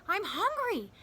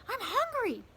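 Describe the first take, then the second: Both takes have the same delivery.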